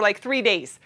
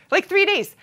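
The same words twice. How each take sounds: First: Said in the usual way. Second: "three" punched high and emphatic; stress on three. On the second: Shown as a demonstration. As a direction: hit "three" in disbelief.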